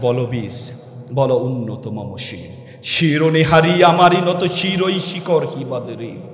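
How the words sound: It is recited boldly, with heroic force.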